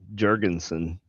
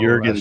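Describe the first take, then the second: First: It is said in a South Carolina accent. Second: It is said in a standard accent.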